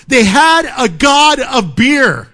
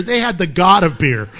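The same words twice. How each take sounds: First: They had a god of beer, slow and loud, leaning on had; slow emphatic delivery. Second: Said in the usual way. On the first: Shown as a demonstration. Preacher marvelling at the congregation, slow and emphatic. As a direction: stretch it out and punch had.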